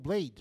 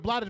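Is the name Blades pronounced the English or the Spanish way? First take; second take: English; Spanish. First: The name is said with an English pronunciation. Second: The name is said with a Spanish pronunciation. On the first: This is the name as Americans say it. "in America, he's called Blades" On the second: This is the name as said in its original language. "he's a Blades, but he's in America"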